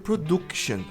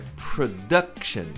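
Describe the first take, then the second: First: The second vowel sounds like U. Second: The second vowel sounds like A. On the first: The speaker calls it wrong. "Esse U não tem som de production" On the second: The speaker calls it right. "O U tem som de A"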